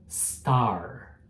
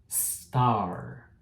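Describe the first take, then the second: No difference in how they are said.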